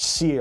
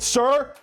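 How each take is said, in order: First: The name rhymes with 'fear'. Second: The name rhymes with 'fur'. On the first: This is how most people say it. "I've gotten comments that it's pronounced Seer" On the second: This is the speaker's own preferred way. "choose to always love pronouncing it Sir"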